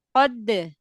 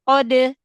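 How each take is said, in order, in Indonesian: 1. Konsonan akhirnya ditahan, lalu dilepas dengan bersih. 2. Konsonan akhirnya dilepas dengan bunyi vokal. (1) "Nempel dulu di makhraj dal" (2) "Jadi bukan kode, kode. Bukan"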